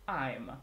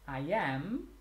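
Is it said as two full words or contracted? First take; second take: contracted; full. First: It is said as one shortened contracted word. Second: It is said as two full separate words. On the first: "then you have I'm" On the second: "So if we have I am"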